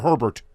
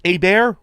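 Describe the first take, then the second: First: "Herbert" said as HUR-burt; "Herbert" the English way, both R's pronounced; English-style pronunciation. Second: "Hebert" said as ay-BAIR; "Hebert" with silent H and silent final T; French-style pronunciation. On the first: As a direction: say "Herbert" with H and final T sounded. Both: Shown as a demonstration. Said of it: "Is it Hebert or Herbert?".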